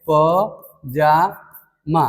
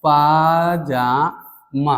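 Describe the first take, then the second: First: पजामा very slowly as "pa, jaa, maa"; wrong form, syllable by syllable. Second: पाजामा slowly as "paa, jaa, maa"; correct form, syllable by syllable. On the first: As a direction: break पजामा into syllables, short first प. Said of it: "अशुद्ध है". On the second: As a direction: break पाजामा into syllables, long first पा. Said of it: "इसका जो शुद्ध होता है". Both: Shown as a demonstration.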